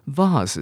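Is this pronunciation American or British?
British. It is said with a British accent. "vase 是英国人的念法"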